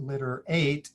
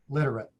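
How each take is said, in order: First: The last syllable has a long A vowel. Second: The last syllable has a reduced schwa vowel. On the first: The speaker calls it wrong. "Instead of eight, it's not litter eight" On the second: The speaker calls it right. "it's flex it to a schwa"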